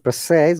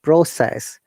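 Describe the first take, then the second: First: The pitch goes up on the word. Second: The pitch goes down on the word. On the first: The word is used as a verb. "going the intonation up, that time it is a verb" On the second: The word is used as a noun. "When it comes from up to down, down intonation, that times it becomes as a noun"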